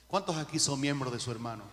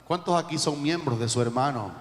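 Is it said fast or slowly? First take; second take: fast; slowly. First: It is said fast. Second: It is said slowly.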